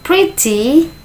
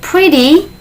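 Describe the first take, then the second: First: The middle consonant is a clear t. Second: The middle consonant sounds like a d. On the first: The speaker uses a British accent. "suara t tetap t, maka itu menggunakan British" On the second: The speaker uses an American accent. "T itu di tengah itu menggunakan D, ... maka dia itu menggunakan American"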